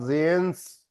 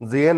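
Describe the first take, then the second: First: The name ends with an s sound. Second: The name ends without an s sound. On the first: The speaker calls it right. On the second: The speaker calls it wrong.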